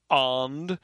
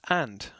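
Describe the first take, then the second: First: The vowel is drawn out long. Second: The vowel is short and quick. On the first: The speaker calls it wrong. "this is not" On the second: The speaker calls it right. "it's just and. The short version"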